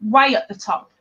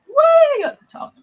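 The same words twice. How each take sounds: First: Said in the usual way. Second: Much higher, louder put-on Scouse accent; Liverpool accent. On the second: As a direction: do your spot-on Liverpool accent. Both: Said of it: "Lee's accent, the Liverpudlian accent".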